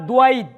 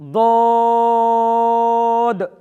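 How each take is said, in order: First: A w-glide and an i-glide follow the consonant. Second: A long, soft vowel follows without any glide. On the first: The speaker calls it wrong. "ভুল উচ্চারণ" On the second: The speaker calls it right. "মাঝখানে লম্বা, একটু নরম করে ঠিক এইভাবে"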